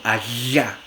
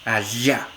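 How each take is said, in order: First: The consonant is a fricative with air escaping sideways. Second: The same.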